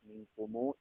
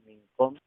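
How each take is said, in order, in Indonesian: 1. Bunyi m di akhir diikuti bunyi u panjang. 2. Kata ini diakhiri bunyi m tertutup.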